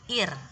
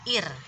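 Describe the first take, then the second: First: The word ends on a bare r sound. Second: The same.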